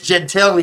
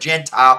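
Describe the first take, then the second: First: The name is said with Italian-style vowels throughout. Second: The name is said like the English word gentile. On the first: The speaker calls it right. "Gentili is the correct pronunciation here" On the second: The speaker calls it wrong. "I keep wanting to call it Gentile"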